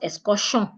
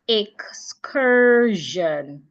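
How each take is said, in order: First: The ending is voiceless, like 'shun'. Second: The ending is voiced, like 'zhun'. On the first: The speaker calls it wrong. "Not excursion" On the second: The speaker calls it right. "S I O N would also sound jeune"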